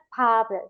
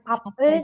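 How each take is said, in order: First: The final consonant is linked onto the vowel. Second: The final consonant is separated from the vowel. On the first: The speaker calls it right. "tapi jadinya pub" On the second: The speaker calls it wrong. "Bukan pub e"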